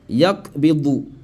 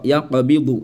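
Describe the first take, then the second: First: The q sound is plain, with no echoing bounce. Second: The q sound has a short echoing bounce. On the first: The speaker calls it wrong. "Je n'ai pas appliqué la règle de qalqala ici" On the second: The speaker calls it right. "Si je veux appliquer la règle de qalqala"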